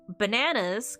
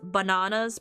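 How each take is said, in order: First: It is said in a plain American accent. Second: It is said in an English accent. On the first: The word does not rhyme with piranhas. "and it didn't rhyme" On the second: The word rhymes with piranhas. "if you read it as bananas, piranhas, it rhymed"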